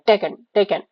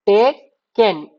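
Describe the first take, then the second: First: Clipped quick reading of taken, vowel swallowed. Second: taken drawn out slowly, every sound clear; very slow, deliberate taken; slow careful reading. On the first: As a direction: say taken fast, almost without the middle vowel. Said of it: "बहुत जल्दी हम लोग उसको read करते हैं". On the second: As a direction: stretch taken out syllable by syllable. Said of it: "टेक लिख के एन". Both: Shown as a demonstration.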